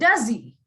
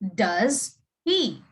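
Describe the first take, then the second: First: The h is dropped, words run together. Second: The h in 'he' is clearly pronounced. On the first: "when you say it in a normal conversation, you would say it as" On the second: "normally you would say this as... You would pronounce the H"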